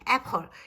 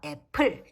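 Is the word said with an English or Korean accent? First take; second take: English; Korean. First: It is said with an English accent. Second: It is said with a Korean accent. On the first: "이렇게 발음해 드리지 않고요" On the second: "이렇게 친절하게 발음해 드릴 테니까"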